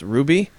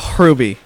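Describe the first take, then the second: First: The name begins directly with an R sound. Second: A hard, throaty H comes before the R. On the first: "just pronounced Ruby" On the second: "like a really hard H right before it"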